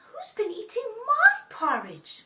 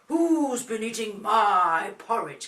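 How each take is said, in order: First: It is said in a lighter, motherly voice. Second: It is said in a deep, big voice. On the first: The mother bear is speaking. "in a Mummy's voice" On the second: The father bear is speaking. "Daddy says in a deep voice"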